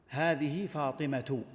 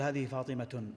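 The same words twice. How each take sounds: First: The name ends without a final n sound. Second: The name ends with an added n sound. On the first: The speaker calls it right. "فمثلا تقول" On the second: The speaker calls it wrong. "ولا تقول"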